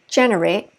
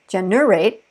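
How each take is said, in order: First: The stress is on the first syllable. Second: The stress is on the last syllable. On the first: The speaker calls it right. "say generate" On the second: The speaker calls it wrong. "we didn't say generate"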